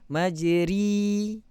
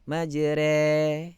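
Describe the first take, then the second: First: The vowel after r is a closed i sound. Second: The vowel after r is more open still. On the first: "Kalau kasrah majri" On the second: "naikkan lagi"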